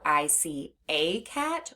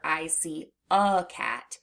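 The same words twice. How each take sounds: First: "a" said as long ay, slow; slow, clear sentence, "a" as ay. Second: "a" reduced to a short uh, slow; slow sentence, "a" as a quick uh; schwa in "a". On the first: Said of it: "That schwa sound is when someone says". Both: Shown as a demonstration.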